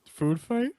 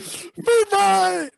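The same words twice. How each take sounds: First: It is said in a plain, flat way. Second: It is said with loud, exclaiming energy. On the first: The speaker calls it wrong. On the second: The speaker calls it right.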